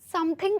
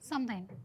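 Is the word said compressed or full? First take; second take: full; compressed. First: Every syllable of the word is fully pronounced. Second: The syllables are run closely together. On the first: The speaker calls it wrong. "ऐसा पूरा बोलने की जगह" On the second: The speaker calls it right. "थोड़ा सा पास बोलो"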